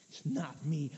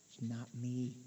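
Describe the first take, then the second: First: "not" pressed firmly in "It's not me"; stress on not. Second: Soft and low, almost to oneself; hushed inner refusal. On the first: Repeated declaration, second take. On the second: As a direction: murmur it inward, quietly. Repeated declaration, first take. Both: Shown as a demonstration.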